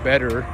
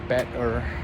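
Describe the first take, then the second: First: The middle consonant sounds like a soft D. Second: The middle consonant is a crisp T sound. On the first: It follows how native speakers say it. "basically sounding as a D" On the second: It follows the spelling like a textbook. "say it as better with the T"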